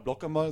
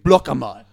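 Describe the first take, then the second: First: It is said calmly and quietly. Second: It is shouted loudly. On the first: "Also es war nicht so" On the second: "Aber richtig"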